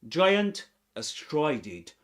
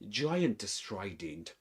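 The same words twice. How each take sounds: First: The words are said separately, without linking. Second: The words are linked together like one word. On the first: "He doesn't say giant astride it" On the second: "but giant astride it"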